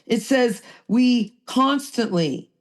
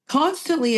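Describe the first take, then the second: First: Said in the usual way. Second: Constantly repeated, pitched higher and pressed; stress on constantly. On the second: Shown as a demonstration. Repeating the key word to the group, pitched up for stress. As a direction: lean into constantly the second time.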